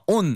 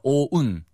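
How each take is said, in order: First: The vowel is short and flat, like 'on'. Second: The vowel glides from 'o' toward 'u'. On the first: The speaker calls it wrong. "On 아니고요" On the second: The speaker calls it right. "O-un이에요"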